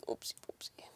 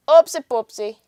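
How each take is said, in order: First: Hushed, voiceless whisper; whispered oops. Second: Higher, punchy and out loud; loud playful oops. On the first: Streamer fumbling with the audio, whispered to self. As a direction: whisper it under your breath. Mutters, then repeats it aloud. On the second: Streamer fumbling with the audio, loud playful oops. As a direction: sing out the slip cheerfully. Repeats the whispered oops aloud. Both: Real, not acted.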